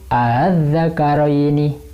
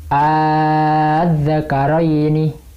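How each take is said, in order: First: The second hamza is softened, between hamza and vowel. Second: The second hamza is replaced by a long vowel. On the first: "Kalau dibaca tashil" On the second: "Kalau dibaca ibdal"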